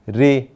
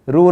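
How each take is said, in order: First: The syllable ends with an 'ee' vowel. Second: The syllable ends with an 'oo' vowel. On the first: The speaker calls it right. "इसका उच्चारण हिंदी में होता है री" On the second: The speaker calls it wrong. "रू नहीं"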